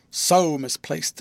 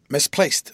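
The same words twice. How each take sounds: First: "So" drawn out slowly before "misplaced"; stress on SO. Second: "Misplaced" as a short, mysterious pronouncement; hint at a secret in one word; great mystery. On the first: Guardian insisting on how misplaced his clerk is, stress on SO. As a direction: stretch "So" long and weighty. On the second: Guardian answering the natural inquiry, with great mystery. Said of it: "with great mystery". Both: A narrator's reading.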